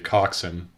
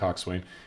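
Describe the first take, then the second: First: The second syllable is reduced to a short 'sun'. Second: The second syllable is a full 'swain'. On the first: This is how the people who use the term say it. The speaker calls it right. "they say coxswain" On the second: This follows the spelling of the word. The speaker calls it wrong. "They don't say"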